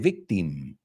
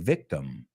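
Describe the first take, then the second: First: The last syllable is a full clear 'im'. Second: The last syllable is a reduced weak 'um'. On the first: The speaker calls it wrong. "we don't say victim. ... no es im" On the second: The speaker calls it right. "We say victim"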